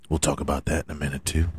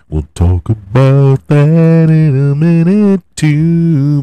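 First: Fast, soft and low throwaway; quick mumble. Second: Slow, louder and higher proclamation; big announcer retake. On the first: Promising the NBA talk, quick mumble. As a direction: rush it under your breath. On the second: Promising the NBA talk to listeners, booming. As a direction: boom it out slowly like a promo. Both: Shown as a demonstration. Repeats line two ways.

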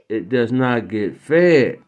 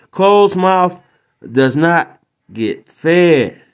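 First: Quieter, slow repeat; soft echo. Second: Slow, weighty delivery; emphatic maxim. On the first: Host repeating the moral softer and slow. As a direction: let it sink in softly. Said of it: "repeated softer". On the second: Host closing the moral slowly. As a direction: drive the lesson home, slowly. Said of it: "moral punchline, slowed". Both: Real, not acted.

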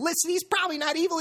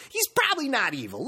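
First: Quick, much higher, pressing the point home; insistent repeat. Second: Said in the usual way. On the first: Real, not acted. Insisting to listeners the owner isn't evil, quick and high. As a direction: hammer it again, faster and up high.

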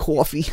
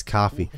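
First: "coffee" as "cawfee", pitched up. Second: Said in the usual way. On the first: Shown as a demonstration. Correcting then mocking northerners, "coffee" said "cawfee". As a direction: round the first vowel of "coffee" to a New York "aw". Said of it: "they can't say "ah". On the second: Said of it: "It's coffee".

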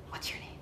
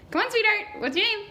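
First: Very quiet, near-whispered question; hushed, casual asking; soft question. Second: High-pitched, sugary coaxing; high, patronizing encouragement; coaxing sweetheart. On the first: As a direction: ask it under your breath. Game master voices stranger asking name first time. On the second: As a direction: coax it out as if from a small child. Stranger coaxes shy player for name. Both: Acted.

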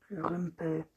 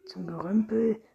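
First: Said in the usual way. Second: Louder, higher indignant echo. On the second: A narrator's reading. Rüdiger objects to his coffin among junk, indignant. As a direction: throw the phrase back, outraged. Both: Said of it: "rief Rüdiger empört".

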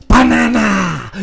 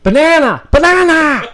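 First: Slow, high cartoon Minion. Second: Loud, high yelled word; shouting. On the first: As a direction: stretch it out like a Minion. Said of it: "let me see if I can do my best Minion voice". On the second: Acted. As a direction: yell the safe word out.

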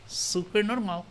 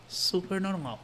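The two takes are said the same way.

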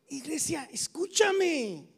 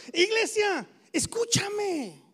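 First: Escúchame stretched slow; slow call. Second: Iglesia said higher, escúchame stretched slow; slow call. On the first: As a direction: draw out escúchame as an appeal. (escúchame, lento y llamando) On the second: (Iglesia, escúchame, más alto y lento) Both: Shown as a demonstration.

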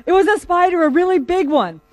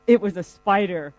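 First: High, loud acted self-defence; mock-indignant justification, much higher and louder; insistent protest. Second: Mildly sheepish, retold confession; sheepish admission. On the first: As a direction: insist on it, raised and urgent. Man defends himself to incredulous police. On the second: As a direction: own up reluctantly, as if embarrassed. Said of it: "looks sheepish and says".

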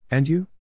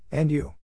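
First: High, louder replay of his awkward line; mocking his own reply. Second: Said in the usual way. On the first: Narrator replaying his awkward answer, self-mocking. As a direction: cringe at what you just said. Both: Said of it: "What was that?".

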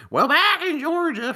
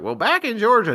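First: Very high, loud mocking Southern twang; exaggerated Southern accent, taunting mimicry. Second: Put-on high, loud Southern kid voice; hammed-up Southern accent, pitched up. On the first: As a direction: parrot it back like jeering classmates. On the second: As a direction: imitate yourself as a Southern kid. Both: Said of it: "mocking Southern accent".

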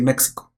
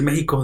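First: México said with ks, "MEK-see-ko"; correct pronunciation. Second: México said with a throaty jota, "MEH-hee-ko"; wrong pronunciation. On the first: Insisting to friends on the ks México. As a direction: say México with a clear ks in the middle. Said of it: "deberíamos decir México". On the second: Correcting friends, first the disliked jota México. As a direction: say México with a Spanish j sound, like "Mé-ji-co". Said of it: "no deberíamos decir México". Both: Shown as a demonstration.

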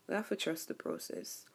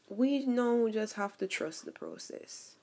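First: Whispered repeat, voice dropped away. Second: Said in the usual way. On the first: Real, not acted. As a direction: breathe the words, no voice. Repeats line, then whispers it.

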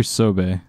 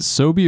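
First: "Sobe" said SO-bay; ending in "bay". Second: "Sobe" said SO-bee; ending in "bee". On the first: Friend offering the other brand pronunciation, "Sobe" ending in bay. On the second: Friend asking how the bottle brand is said, "Sobe" ending in bee. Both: Shown as a demonstration. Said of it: "is it Sobe or Sobe?".

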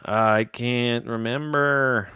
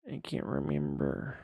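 First: Slow, dragged-out groan of frustration; drawn-out frustration. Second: Softer, deflated repeat; defeated mutter. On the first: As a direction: stretch it out like you're exasperated. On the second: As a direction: let it fall away, giving up. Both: Real, not acted. Frustrated at forgetting the topic.

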